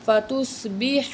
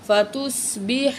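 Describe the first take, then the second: First: فَتُصْبِحَ with a thick, full saad; heavy letter demo. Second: فَتُصْبِحَ with a thick saad; teacher models heavy saad. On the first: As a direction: round the saad in فَتُصْبِحَ heavily. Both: Shown as a demonstration. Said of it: "سواد کو موٹا کریں گے".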